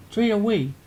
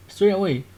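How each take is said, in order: Both takes have the same delivery.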